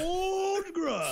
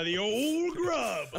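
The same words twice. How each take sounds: First: High, hammed-up wail; mock wailing. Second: Drawn out slowly. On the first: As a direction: wail the name like a lament. Mock lament over the name. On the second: Acted. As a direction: stretch out the old name. Savoring the silly name.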